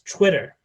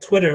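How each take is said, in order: First: The word begins with a ch sound. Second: The word begins with a plain t sound.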